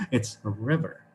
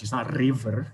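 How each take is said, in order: First: River with a soft unrolled R, a touch slow; soft English R. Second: River said with a rolled R. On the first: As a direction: say river, no rolling. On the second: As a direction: roll the R in river. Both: Shown as a demonstration. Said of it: "we don't roll it too much".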